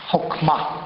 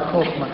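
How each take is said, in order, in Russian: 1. Произносится с ивритским произношением. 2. Произносится с русским произношением.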